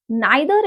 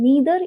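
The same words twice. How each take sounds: First: "Neither" as NYE-ther; British pronunciation. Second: "neither" as NEE-ther; American pronunciation. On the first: Teacher shows what we have been pronouncing, British pronunciation. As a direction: open "Neither" with the vowel of eye. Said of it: "Neither is the British pronunciation". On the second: Teacher contrasts it with British, American pronunciation. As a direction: ee vowel in "neither". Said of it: "American pronunciation". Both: Shown as a demonstration.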